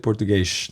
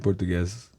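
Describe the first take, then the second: First: The word ends with an sh sound. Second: The word ends with an s sound. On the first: Most people in Brazil do not say it this way. "They don't say Portuguese" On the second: Most people in Brazil say it this way. "They say Portuguese"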